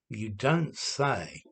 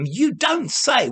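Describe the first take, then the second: First: It is said in a flat, bored tone. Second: It is said in a lively, surprised tone. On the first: The news is not really surprising. "I'm using it ironically to say, to pretend to be surprised" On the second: The news is genuinely surprising and good. "it's like uh, surprise and congratulation"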